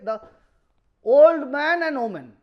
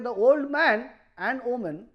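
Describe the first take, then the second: First: The phrase runs on with no break after 'man'. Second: There is a break after 'man' before 'and woman'. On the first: Both the man and the woman are old. "then man and woman both are old" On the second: Only the man is old, not the woman. "then man is old but woman is not"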